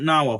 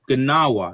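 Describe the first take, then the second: First: The word begins without any G sound. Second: The word begins with a sounded G. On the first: The speaker calls it wrong. "not Nawa" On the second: The speaker calls it right. "correction there by by by the good doctor, it's Gnawa"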